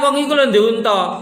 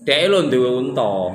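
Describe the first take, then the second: First: It is said in a mocking tone. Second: It is said in a respectful tone.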